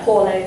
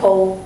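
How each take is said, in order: First: It is said unlike the English word pole. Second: It is said like the English word pole. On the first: The speaker calls it right. "but we pronounce it kind of Pole" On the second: The speaker calls it wrong. "It looks like pole"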